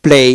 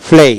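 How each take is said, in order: First: প্লে with a plain P; plain P variant. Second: প্লে begun as ফ্লে; aspirated P variant. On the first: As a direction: say প্লে with a closed-lip প at the start. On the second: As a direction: say প্লে with an airy ফ in place of প. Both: Shown as a demonstration. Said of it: "আবার".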